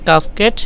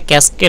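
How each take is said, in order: First: The word is said in a British accent. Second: The word is said in an American accent. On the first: "British প্রোনাউন্সিয়েশনে" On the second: "আমেরিকানে"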